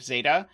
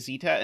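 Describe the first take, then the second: First: Zeta is said the American way. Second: Zeta is said the British way.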